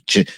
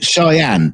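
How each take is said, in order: First: The name sounds like 'chenny'. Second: The name sounds like 'shy-ann'. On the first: The speaker calls it wrong. "how to pronounce that name" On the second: The speaker calls it right. "it's pronounced Cheyenne"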